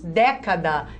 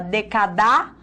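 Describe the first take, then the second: First: The stress is on the first syllable. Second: The stress is on the last syllable. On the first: The speaker calls it right. "Nós falamos década. Então, toda a proparoxítona é acentuada" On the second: The speaker calls it wrong. "A gente fala decadar"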